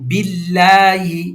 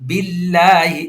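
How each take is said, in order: Both takes have the same delivery.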